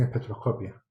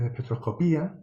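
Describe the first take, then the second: First: Espectroscopia with the stress on "co", no accent on the i; espectroscopia unstressed i. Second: Espectroscopía with the stress on the final "í". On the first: Lecturer showing the American form "espectroscopia", stress on "co". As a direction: say "espectroscopia" ending -copia like fotocopia. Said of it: "la mayoría ... dicen espectroscopia". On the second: Lecturer showing the Spanish form "espectroscopía", stress on "í". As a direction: say "espectroscopía" leaning on the í, as in Spain. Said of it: "se tiende a decir espectro-, eh, espectroscopía".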